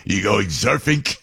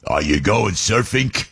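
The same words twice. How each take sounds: First: Put-on Brooklyn accent, "surfing" ending in a hard K; Brooklyn surfink. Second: Put-on Brooklyn accent. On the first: Neighbor asking young Joey about surfing, Brooklyn "surfing" with a K. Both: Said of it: "he would put the K on surfing".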